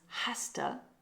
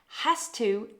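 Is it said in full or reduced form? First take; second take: reduced; full. First: The words run together into one reduced word. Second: Both words are said fully and separately.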